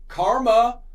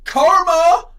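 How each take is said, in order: First: It is said calmly and discreetly. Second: It is said loudly and aggressively.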